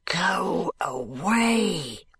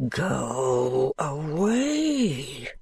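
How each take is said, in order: First: Slow, hollow ghostly command; a lightly voiced grim ghost, drawn out; spectral voice. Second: Very slow, hollow and grave; a grim ghostly order, even slower; solemn ghostly command, stretched out; more solemn spectral voice. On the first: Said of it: "in a spectral bass voice". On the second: Acted. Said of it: "repeats more solemnly".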